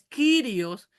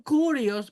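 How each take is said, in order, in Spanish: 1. La primera vocal suena como 'ee'. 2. La primera vocal suena como 'oo'. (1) "es Quirios" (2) "algunos dicen Curios porque la Y parece una U, pero no es una U"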